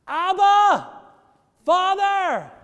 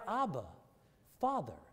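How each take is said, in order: First: A high, ringing shout of Abba, Father; loud cry. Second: Quiet, intimate "Abba, Father"; tender, soft. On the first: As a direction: cry it out with full voice to heaven. Preacher cries out the prayer. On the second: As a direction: say it softly like calling a daddy. Tender retelling after explaining Daddy. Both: Acted.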